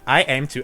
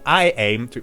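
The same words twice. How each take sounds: First: It is read in a flat, robotic voice. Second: It is read in a natural voice. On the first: The speaker calls it right. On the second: The speaker calls it wrong.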